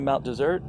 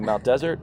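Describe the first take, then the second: First: The stress is on the second syllable. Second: The stress is on the first syllable. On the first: This is how locals say it. "but locals say Mount Desert" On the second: This is how outsiders say it. "some people say Mount Desert"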